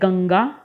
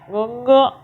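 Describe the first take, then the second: First: It is said with the nose open, normally. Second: It is said with the nose pinched shut.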